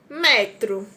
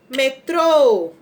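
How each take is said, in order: First: The stress is on the first syllable. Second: The stress is on the last syllable. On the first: A unit of measurement. "não tem acento" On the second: A means of transport, a kind of train. "o acento vai ser no final"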